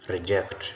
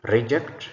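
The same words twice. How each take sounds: First: ReJECT, weight on the last syllable; stress on second syllable. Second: REject, louder with a rising end; stress on first syllable. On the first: Teacher models the verb for the class, second-syllable stress on "reject". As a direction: say "reject" as the verb, hitting "ject". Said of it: "second syllable stressed gives us a verb". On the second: Teacher models the noun for the class, first-syllable stress on "Reject". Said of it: "first syllable stressed gives us a noun". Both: Shown as a demonstration.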